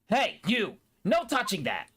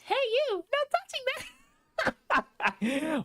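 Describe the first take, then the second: First: It is said in an ordinary, unstyled voice. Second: It is said in a Princess Peach impression.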